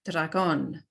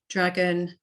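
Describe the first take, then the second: First: It is said with Spanish pronunciation. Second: It is said with English pronunciation. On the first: "in the Spanish pronunciation" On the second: "in English"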